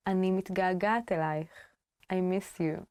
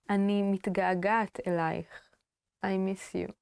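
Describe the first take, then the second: No difference in how they are said.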